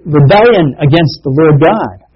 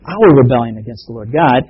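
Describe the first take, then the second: First: Said in the usual way. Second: Our lifted and leaned on; stress on our. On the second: Shown as a demonstration. Preacher owning the sin for the listeners, leaning on our. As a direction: make our the key word of the phrase.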